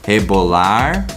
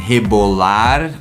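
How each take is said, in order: First: The R sounds like an American R. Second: The R is not an American-style R. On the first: "Just a regular R sound like we have in American English" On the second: "you might hear some people saying rebolar, rar"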